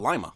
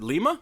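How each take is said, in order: First: It is said like the bean. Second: It is not said like the bean. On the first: "like lima bean?" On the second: "Is it Lima?"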